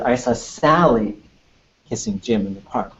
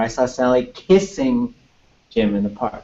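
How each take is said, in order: First: The word Sally carries the main stress. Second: The word kissing carries the main stress. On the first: The sentence is about who was involved. "It's all about Sally" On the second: The sentence is about what they were doing. "So there's something about kissing"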